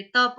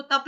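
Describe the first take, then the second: First: तप as ta-pa, both syllables sounded; full final vowel. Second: तप as tap, final vowel dropped; clipped wrong take. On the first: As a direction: finish तप on an open a. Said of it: "तप पूरा बोलेंगे". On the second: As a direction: cut तप short on the p. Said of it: "इसको तप नहीं बोलेंगे". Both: Shown as a demonstration.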